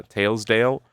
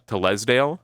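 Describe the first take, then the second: First: "Talesdale" said like "tails-dale", long A sound; magical pronunciation. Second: "Telesdale" said "TELL-es-dale", short E, three syllables; non-magical pronunciation. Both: Shown as a demonstration. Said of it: "or as would be pronounced by non-magical people".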